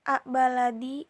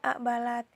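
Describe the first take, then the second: First: The word ends with a short vowel. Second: The word ends on a silent consonant. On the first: The reader continues without stopping. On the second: The reader stops at this word.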